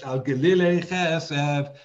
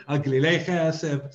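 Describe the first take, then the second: First: "glile" stressed before its last syllable, drawn out slowly; slower "glile" with early stress; stress moved earlier. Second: "glile" stressed on its final syllable; the awkward version, "glile" end-stressed; stress on last syllable. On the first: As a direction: pull the weight back in "glile". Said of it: "make the stress earlier in that word". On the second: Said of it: "doesn't sound good to say". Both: Shown as a demonstration.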